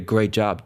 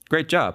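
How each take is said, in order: First: It is said in a sarcastic, mocking tone. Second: It is said in a sincere, praising tone. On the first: The speaker is frustrated with what was done. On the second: The praise is genuine.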